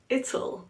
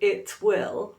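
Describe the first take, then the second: First: It is contracted with a clearly pronounced T. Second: It is said as two full words. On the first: "we have it'll" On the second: "Instead of it will"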